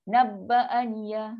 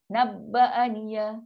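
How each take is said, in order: First: The vowel after bb is short. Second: The same.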